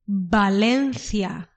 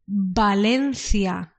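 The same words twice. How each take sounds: First: The word begins with a B-like sound. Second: The word begins with a B-like sound.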